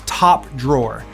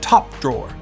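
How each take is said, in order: First: It is said in the speaker's ordinary American accent. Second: It is said in an attempted British accent.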